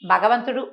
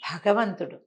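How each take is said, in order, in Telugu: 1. మొదటి హల్లును ఊపిరి ఊదకుండా పలుకుతారు. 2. మొదటి హల్లును ఊపిరి ఊదినట్టుగా పలుకుతారు.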